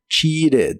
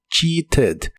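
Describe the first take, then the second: First: The middle t sounds like a quick r. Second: The middle t is a clear t sound. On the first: This is how it is said in casual conversation. "la T de esta palabra la suelen pronunciar como R y suena como cheated" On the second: This is the official pronunciation. "La pronunciación oficial es cheated"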